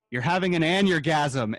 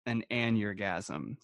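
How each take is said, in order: First: Mom's punchline. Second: Aneurgasm repeated slowly and flatly, savoring the word; slow deadpan echo. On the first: Retold or imitated. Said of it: "she cracked up laughing". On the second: Shown as a demonstration. Telling the hosts the mom's made-up word, slow deadpan. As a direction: let aneurgasm hang, drawn out and dry.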